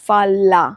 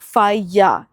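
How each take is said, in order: First: The double L is said as an L sound. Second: The double L is said as a Y sound. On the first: The speaker calls it wrong. "Not फाला" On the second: The speaker calls it right. "तो अगर double L लिखा हुआ है तो मतलब वो या साउंड करेगा"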